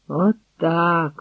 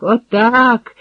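First: Said in the usual way. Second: Отак called out with joy; gleeful warrior cheering; rejoicing. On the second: A narrator's reading. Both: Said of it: "радів якийсь дружинник".

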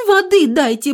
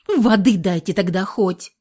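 First: "Воды" screamed high and loud, stretched out; desperate high shout of "Воды"; pleading shout. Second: A flat, dogged demand for "Воды"; stubborn repeat. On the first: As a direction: yell "Воды дайте" with everything you have. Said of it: "напирала Лиска". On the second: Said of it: "упрямо повторила". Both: A narrator's reading.

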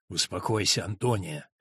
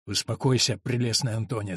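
First: Тихо и низко. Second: Успокаивающе. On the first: Монах подавляет сопротивление. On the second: Монах успокаивает Антонию. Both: Acted.

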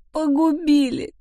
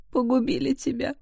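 First: The repeated «Погубили» cried aloud, slow and high; anguished wail. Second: The first «Погубили» held back, a hushed high wail; grieving lament. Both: A narrator's reading. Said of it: "причитала она".

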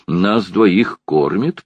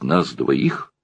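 First: «двоих» drawn out slowly with a rising pitch; stress on двоих. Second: Said in the usual way. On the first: A narrator's reading. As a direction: lean on «двоих», slow and insistent. Ладышкин повторяет с нажимом. (нажим на «двоих», медленно, с подъёмом)

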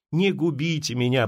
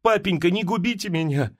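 First: Poor Masha repeating her plea, mildly subdued; pleading repeat. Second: A mild, pleading cry to her father; plaintive plea. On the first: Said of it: "повторяла бедная Маша". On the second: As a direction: beg him, a touch higher. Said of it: "закричала она жалобным голосом". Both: A narrator's reading.

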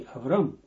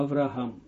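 First: "Авраам" said as Avram, no h sound; name without H. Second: "Авраам" said as Avraham, h between the a's; name with H. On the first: Teacher contrasting the name's older form, "Авраам" pronounced Avram. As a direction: drop the h in "Авраам", saying Avram. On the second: Teacher pointing out the added letter, "Авраам" pronounced Avraham. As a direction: sound the h in "Авраам": Av-ra-ham. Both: Shown as a demonstration. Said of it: "с буквочкой Гей".

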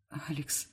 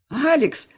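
First: Алекс breathed out almost silently, much softer; breathless whisper. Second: Алекс screamed out, much higher and louder; shouted. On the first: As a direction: barely exhale the name Алекс in fear. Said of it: "выдыхаю беззвучно". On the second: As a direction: yell the name Алекс to stop the fight. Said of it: "выкрикиваю я". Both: Acted.

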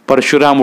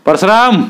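First: Said in the usual way. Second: "परशुराम!" called out high with a falling end; calling out. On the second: A narrator's reading. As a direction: summon "परशुराम" across the room. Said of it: "हाळी दिली".

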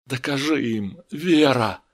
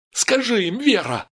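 First: Restrained entreaty at near-usual pitch; pleading. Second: High-pitched, raised cry; urgent demand. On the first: A narrator's reading. Steve begs Vera to prove herself, pleading. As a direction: implore her, holding the volume down. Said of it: "взмолился он". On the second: Acted. Steve, tears burning, urges Vera, crying out. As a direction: demand it desperately. Стив в слезах требует от Веры.

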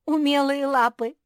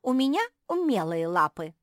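First: «Умелые» thrown back much higher and louder with a rising jeer; mocking echo. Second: Said in the usual way. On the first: A narrator's reading. Kuki mocking her little sister's boast, loud and jeering. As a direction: mimic «умелые лапы» scornfully. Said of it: "Куки расхохоталась". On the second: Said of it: "вступила в беседу самая маленькая мопсишка".

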